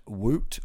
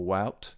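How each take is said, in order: First: "Wout" rhyming with "boot"; Wout as "woot". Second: "Wout" rhyming with "shout"; Wout as "wowt". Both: Shown as a demonstration. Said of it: "Do we say Wout?".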